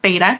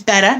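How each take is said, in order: First: The first vowel is long, like 'bay'. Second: The first vowel is short, like 'bet'. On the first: The speaker calls it wrong. "not beta" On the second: The speaker calls it right. "It's betta"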